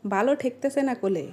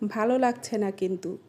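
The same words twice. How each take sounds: First: Regional Sirajganj Bengali accent; Sirajganj dialect. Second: Standard Bengali pronunciation. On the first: Complaining of not liking it, Sirajganj dialect. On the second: Complaining of not liking it, standard Bengali. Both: Shown as a demonstration. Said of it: "এটাকে বলি".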